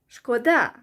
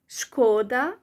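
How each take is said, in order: First: The stress is on the second syllable. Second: The stress is on the first syllable. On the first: It means it is a pity. "When you stress the second syllable, the, the A, uh, it means it's a pity" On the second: It means harm. "when you put stress on the first syllable, it means harm"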